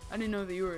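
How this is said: It is spoken in a put-on fatherly voice.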